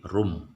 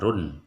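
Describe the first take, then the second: First: The syllable ends with an M sound. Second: The syllable ends with an N sound. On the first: The speaker calls it right. "tetapi rum ... vokalnya adalah M bukan N" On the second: The speaker calls it wrong. "tidak dibaca"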